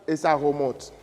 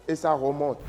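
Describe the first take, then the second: Both takes have the same delivery.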